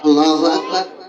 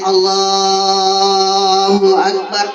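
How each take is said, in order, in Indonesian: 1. Frasa itu diucapkan cepat dan pendek. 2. Frasa itu diucapkan panjang dan lambat. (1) "yang pendek" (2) "panjang takbirnya"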